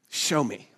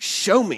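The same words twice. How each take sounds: First: It is said calmly at normal loudness. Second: It is said loudly with forceful urgency.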